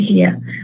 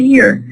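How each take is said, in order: First: The final R is silent, English style. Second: The final R is pronounced.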